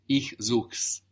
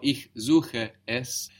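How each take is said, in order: First: The es is reduced to an s on suche. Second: The word es is said as a full syllable.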